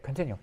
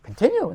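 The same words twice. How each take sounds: First: Said in the usual way. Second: High, loud, astonished question; incredulous echo. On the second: Retold or imitated. Jester told to keep imitating the rebbe, incredulous. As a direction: throw the word back in disbelief.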